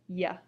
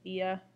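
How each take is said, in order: First: The i and a blend into one syllable. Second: The i and a are two separate syllables. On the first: The speaker calls it wrong. "without the accent, it would go ya" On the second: The speaker calls it right. "two distinct syllables"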